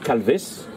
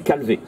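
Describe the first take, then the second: First: The name ends with an audible s sound. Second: The name ends on the vowel, without s. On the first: This is the pronunciation used in northwest Finistère. "là, c'est la prononciation Calvès" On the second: This is the pronunciation used elsewhere in Brittany. "dans toute la partie bretonnante de la Bretagne, c'est Calvé"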